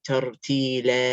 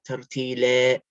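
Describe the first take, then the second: No difference in how they are said.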